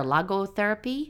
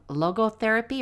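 First: "logotherapy" with an open AH in logo; open-vowel logotherapy. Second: "logotherapy" with a long O in logo. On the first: Mother offering the alternative term, "logotherapy" as LAH-go. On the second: Mother explaining the theory to her co-host, long-o "logotherapy". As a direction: say "logotherapy" with LOH-go at the start. Two pronunciations offered of one term. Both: Shown as a demonstration.

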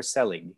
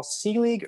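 First: "Selig" with a short e, SELL-ig; SELL-ig pronunciation. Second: "Selig" with a long ee, SEE-lig; SEE-lig pronunciation. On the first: Host offering second surname option, "Selig" said as SELL-ig. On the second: Host checking guest's surname, "Selig" said as SEE-lig. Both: Shown as a demonstration. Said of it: "is it Paul Selig or Selig".

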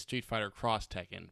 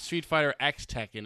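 First: "Cross" spoken as the word between the names; the title with "Cross" as a full word; X read as "Cross". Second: "X" said as the letter name, "ex"; the title with "X" voiced as a letter; X read as letter. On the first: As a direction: say "Cross" where the letter would be. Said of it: "It's not Street Fighter X Tekken". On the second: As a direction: say "X" like "ex" between the names. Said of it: "it's Street Fighter Cross Tekken". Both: Shown as a demonstration.

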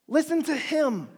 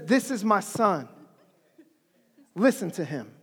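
First: Said in the usual way. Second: Voice of God. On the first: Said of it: "what brilliant thing God said". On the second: Retold or imitated. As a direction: lower the voice into a grave booming command. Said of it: "God's voice comes over the loudspeaker".

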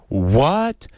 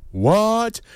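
First: A lightly voiced shocked question; mild rising what of disbelief; Oprah shocked. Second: Much higher, hammed-up shocked what; a big mock gasp of a question; viewers gasping. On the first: Oprah reacting to the baby comments, mildly shocked. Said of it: "Oprah says". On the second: Viewers at home reacting, hammed-up high shock. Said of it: "everyone at home, right, was like".

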